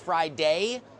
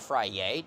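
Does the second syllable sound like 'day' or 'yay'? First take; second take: day; yay. First: The second syllable sounds like 'day'. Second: The second syllable sounds like 'yay'.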